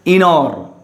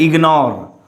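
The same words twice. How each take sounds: First: IGNORE without its g, "inore"; wrong pronunciation demo. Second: IGNORE with a clear g, "ig-nore"; correct sounded g. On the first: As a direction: drop the g from ignore, slowly. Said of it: "so don't say ignore". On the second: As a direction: voice the g before n in ignore. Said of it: "it's a ignore". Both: Shown as a demonstration.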